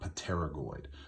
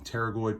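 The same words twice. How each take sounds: First: The word begins with an audible P sound. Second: The word begins with a T sound only. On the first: The speaker calls it wrong. "the P is not pronounced. It is not pterygoid" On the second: The speaker calls it right. "The P is silent"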